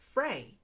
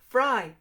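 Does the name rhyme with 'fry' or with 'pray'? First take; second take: pray; fry. First: The name rhymes with 'pray'. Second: The name rhymes with 'fry'. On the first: This is how the Swiss chocolate maker's name is said. "but I would pronounce it Frey" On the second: This is how the author says her own name. "Ria just said it's pronounced Fry"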